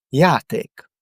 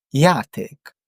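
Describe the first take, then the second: The two takes are said the same way.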